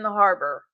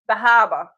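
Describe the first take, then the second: First: It is said in a plain, non-Boston accent. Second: It is said in a Boston accent.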